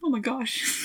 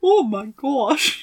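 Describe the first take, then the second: First: It is said in her normal voice. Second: It is said in a put-on Apu-like accent.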